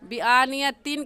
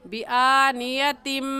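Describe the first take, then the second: First: The word ends with a separate n sound. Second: The final nasal merges into a nasalized m. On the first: The speaker calls it wrong. "बिआनियतिन कहना गलत है" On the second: The speaker calls it right. "इस तनवीन को इस मीम के साथ मिलाकर पढ़ेंगे ऐसे"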